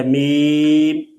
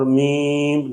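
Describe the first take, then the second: First: Said in the usual way. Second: میم with its long ee in the nose; nasalized vowel. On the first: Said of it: "یہ درست ہے". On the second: Shown as a demonstration. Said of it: "ناک میں آواز جانا".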